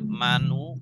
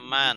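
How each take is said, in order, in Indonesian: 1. Kata ini berakhir dengan vokal tambahan di akhir. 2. Kata ini berakhir dengan konsonan tanpa vokal. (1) "tidak manu" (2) "Selalu man, sukun terus"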